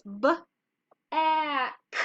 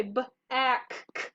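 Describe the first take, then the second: First: "b, a, k" as three separate sounds; sounded out. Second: "b, a, k, k" with the final k said twice; doubled K sound. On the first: Teacher reads a word for kindergartners, sound by sound. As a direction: blend slowly through "b, a, k", one final k sound. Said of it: "right now I would read this". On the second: Teacher shows kindergartners the mistake, separate doubled k. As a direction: sound out "b, a, k, k", wrongly repeating the last sound. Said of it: "Okay, I wouldn't say". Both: Shown as a demonstration.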